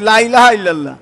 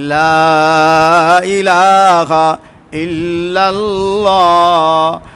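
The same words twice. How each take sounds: First: The first vowel of 'la' is short. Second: The first vowel of 'la' is drawn out long. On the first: There are other gods besides God. The speaker calls it wrong. "লা টান দিয়ে না পড়লে অর্থ এই হয়ে যায় আল্লাহ বাদে অবশ্যই মাহবুদ আছে" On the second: There is no god but God. The speaker calls it right. "তিন আলিফ টান"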